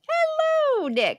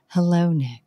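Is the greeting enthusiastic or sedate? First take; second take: enthusiastic; sedate. First: The greeting sounds enthusiastic and lively. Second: The greeting sounds sedate and calm.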